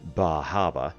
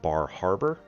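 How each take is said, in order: First: It is said in a down east Maine accent. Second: It is said in a plain accent.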